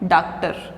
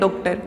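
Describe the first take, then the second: First: The first vowel is a plain open 'aa'. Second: The first vowel is an open rounded 'aw'. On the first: "ये नहीं लगाया तब तो क्या हो गया" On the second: "अगर ये लगा देंगे निशान, ये जो चिन्ह लगाते हैं, तब तो हम पढ़ेंगे"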